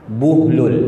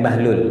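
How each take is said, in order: First: The first syllable has a 'u' vowel. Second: The first syllable has an 'a' vowel. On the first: The speaker calls it right. "Ba itu dhammah. Jadi bacaan yang betul apa?" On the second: The speaker calls it wrong. "Semua salah. Nah, bukan Bahlul"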